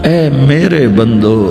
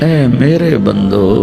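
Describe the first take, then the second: Both takes have the same delivery.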